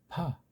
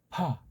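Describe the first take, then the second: First: The lips touch only lightly before the vowel. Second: The lips touch only lightly before the vowel.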